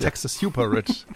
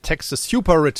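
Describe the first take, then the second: First: Lightly voiced mock slogan; mock Bernie, second take. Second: Louder, higher mock rallying cry; mock Bernie slogan. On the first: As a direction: repeat it in a mild imitation. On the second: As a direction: ham up the slogan. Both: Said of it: "sagt er jetzt".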